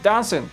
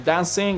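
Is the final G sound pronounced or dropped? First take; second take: dropped; pronounced. First: The word ends in 'in' without the G. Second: The word ends with a full 'ing' sound. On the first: "don't say G at the end" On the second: "you guys don't say G at the end of words like drinking or dancing"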